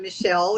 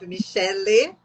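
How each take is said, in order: First: The name is said in a non-Brazilian way. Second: The name is said in a Brazilian way. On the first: This is what her students call her. "My students call me" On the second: This is how people in Brazil say it. "how we say here in Brazil"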